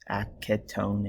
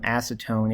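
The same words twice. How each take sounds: First: The C is said as a K sound. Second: The C is said as an S sound.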